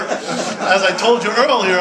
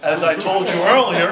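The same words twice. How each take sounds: First: Drawn-out, laughing, louder and higher; slow laughing emphasis on a repeated line. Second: Loud, laughing aside to the audience; laughing through the reminder. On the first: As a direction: stretch each word out through a laugh. Repeats the phrase, slowed, laughing. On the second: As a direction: laugh it out, louder and higher. Laughing while telling the crowd. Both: Real, not acted.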